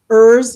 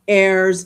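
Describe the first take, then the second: First: The vowel sounds like the one in fur. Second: The vowel sounds like the one in hair. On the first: "Bob would always want to pronounce it ers" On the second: "Like error, I made an error"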